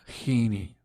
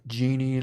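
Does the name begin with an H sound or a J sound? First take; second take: H sound; J sound. First: The name begins with a breathy H sound. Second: The name begins with an English J sound. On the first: "like the Spanish J" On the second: "like you rub the lamps"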